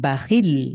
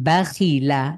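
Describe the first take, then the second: First: The word ends on a bare consonant. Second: The word ends with a final vowel.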